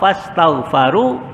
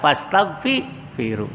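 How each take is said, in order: First: The vowel after gh is a. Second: The vowel after gh is i. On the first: The speaker calls it right. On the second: The speaker calls it wrong.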